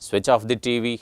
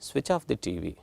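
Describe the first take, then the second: First: It is said in a forceful commanding tone. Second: It is said in a mild instructing tone. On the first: It is an order or command. "ಅದೇ tone change ಮಾಡಿ" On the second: It is a simple instruction. "Tone ನಾವು switch ಆಫ್ the T V is an instruction"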